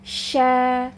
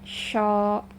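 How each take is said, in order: First: The vowel sounds light, thin and open. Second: The vowel sounds dark, heavy and rounded. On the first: The speaker calls it right. "dibaca tipis atau tarkik ya... dibuka ya" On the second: The speaker calls it wrong. "jangan dibaca sho"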